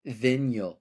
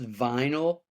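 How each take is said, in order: First: "vinyl" said as VIN-yul; "vinyl" mispronounced to rhyme loosely with "win-yul". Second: Said in the usual way. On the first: Retold or imitated. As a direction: imitate a friend saying "vinyl" with a short i, VIN-yul. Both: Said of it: "He pronounced vinyl".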